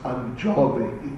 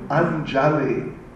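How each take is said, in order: First: The second vowel sounds like 'o', Bengali style. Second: The second vowel is an open 'a' sound.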